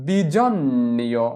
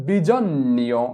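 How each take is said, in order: The two takes are said the same way.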